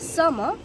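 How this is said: It is said in a British accent. "British অ্যাকসেন্টে সিজনসের name বলতে চাই"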